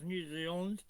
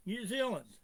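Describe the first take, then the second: First: Said in the usual way. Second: New Zealand said higher, Zealand punched and falling; stress on New Zealand. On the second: Shown as a demonstration. Insisting to a caller that New Zealand is listed, New Zealand stressed high. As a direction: hit New Zealand hard and let it drop. Repeats the name for emphasis.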